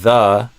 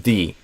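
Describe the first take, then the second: First: The word ends in a short uh vowel. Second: The word ends in a long ee vowel. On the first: "instead of a uh" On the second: "with an e vowel sound"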